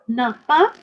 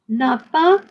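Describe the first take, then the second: Both takes have the same delivery.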